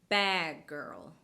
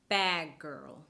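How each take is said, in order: No difference in how they are said.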